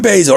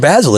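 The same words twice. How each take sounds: First: The name is said the American way. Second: The name is said the English way.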